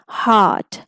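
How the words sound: The R sound is dropped after the vowel. "If you go for the British pronunciation, so R will not be pronounced"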